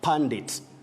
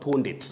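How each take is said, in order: First: The first vowel is a short mid-central 'uh'. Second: The first vowel is not a mid-central 'uh'. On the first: The speaker calls it right. "short mid-central sound A" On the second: The speaker calls it wrong. "not pundit"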